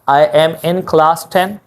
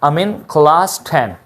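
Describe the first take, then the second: First: Each word of 'I am in' is said separately. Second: 'I am in' is reduced into one word, 'amin'. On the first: "सबसे पहले basic" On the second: "इनमें reduction कीजिए, आई को उड़ाइए"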